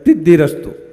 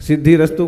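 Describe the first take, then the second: First: The first word begins with a t sound, lisping. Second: The first word begins with a clear s sound. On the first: The speaker calls it wrong. "तोतले व्यक्ति" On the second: The speaker calls it right. "सिद्धि रस्तु को क्या बोलेंगे?"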